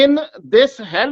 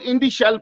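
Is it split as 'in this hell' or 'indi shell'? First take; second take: in this hell; indi shell. First: It is split as three words: in this hell. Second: It is split as two words: indi shell. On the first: The speaker calls it right. "इसका मतलब यह है कि इस जहन्नम में" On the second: The speaker calls it wrong. "उसको ये लोग इंडी शेल पढ़ रहे हैं, इनको समझ नहीं है"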